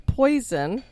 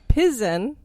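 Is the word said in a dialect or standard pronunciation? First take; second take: standard; dialect. First: It is said with standard English pronunciation. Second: It is said with the local dialect pronunciation.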